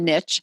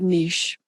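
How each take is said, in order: First: The word has an American pronunciation. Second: The word has a non-American pronunciation. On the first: "In America, we like to say niche" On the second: "I like to call it niche because of where I grew up"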